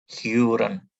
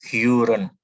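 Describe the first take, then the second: No difference in how they are said.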